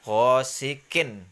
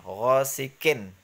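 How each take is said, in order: The two takes are said the same way.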